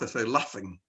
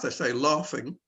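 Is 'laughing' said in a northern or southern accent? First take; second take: northern; southern. First: It is said in a northern accent. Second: It is said in a southern accent.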